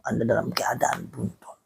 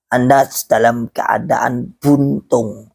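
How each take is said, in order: First: Very soft, dropped-away repeat; hushed echo. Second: Slow, drawn-out delivery; slow verdict. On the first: Preacher repeating his verdict to followers, hushed. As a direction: let it fall almost to nothing. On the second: Preacher telling followers where they stand, slow and deliberate. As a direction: spell it out slowly for the listeners. Verdict stated, then echoed softly. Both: Real, not acted.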